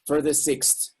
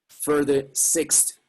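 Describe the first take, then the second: First: 'For the' blends together to sound like 'further'. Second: Each word is said separately and carefully. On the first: The speaker calls it right. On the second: The speaker calls it wrong. "this is what you wouldn't say"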